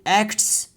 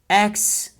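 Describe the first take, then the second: First: The t sound is clearly pronounced. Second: The t sound is dropped. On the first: "Instead of saying acts, cause it demands a lot of effort" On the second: "so we'll say acts"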